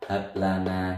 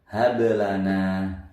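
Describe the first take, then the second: First: The middle consonant is held without a bounce. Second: The middle consonant is released with a small bounce. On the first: The speaker calls it wrong. "Tidak boleh membaca hablana" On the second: The speaker calls it right. "Membacanya mantul"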